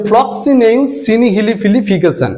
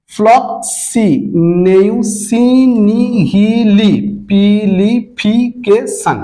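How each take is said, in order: First: ফ্লক্সিনেউ সিনিহিলিপিলিফিকেশন run together as one word; connected pronunciation. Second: ফ্লক্সিনেউ সিনিহিলিপিলিফিকেশন in slow, separated syllables. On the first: Teacher saying the funny-sounding word to students, joined up. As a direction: say the long word through without syllable breaks. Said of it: "এটাকে উচ্চারণ করলে একটু". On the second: Teacher demonstrating pronunciation to students, syllable by syllable. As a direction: stretch out every syllable of the long word. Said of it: "সিলেবালি যদি উচ্চারণ করতে". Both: Shown as a demonstration.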